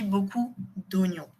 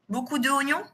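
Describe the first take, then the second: First: The vowel of 'de' is dropped before 'oignons'. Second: The vowel of 'de' is kept before 'oignons'. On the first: The speaker calls it right. "Mais on dit beaucoup d'oignons" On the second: The speaker calls it wrong. "Comme ça? ... Un peu bizarre"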